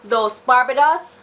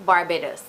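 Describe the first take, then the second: First: "Los Barbados" said as the Spanish name, rising at the end. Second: "Barbados" said the local way as "Bar-bay-dos", lower and softer, falling; local name, softer. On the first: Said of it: "was actually Los Barbados". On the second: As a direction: settle back to the everyday local "Barbados". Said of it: "that's how Barbados got its name". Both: Shown as a demonstration.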